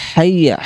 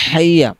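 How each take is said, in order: Both takes have the same delivery.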